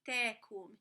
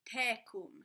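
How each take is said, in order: The two takes are said the same way.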